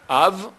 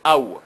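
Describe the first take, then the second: First: The word ends with a v sound. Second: The word ends with a w sound.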